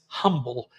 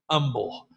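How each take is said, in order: First: The word starts with a clear h sound. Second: The word starts without an h sound.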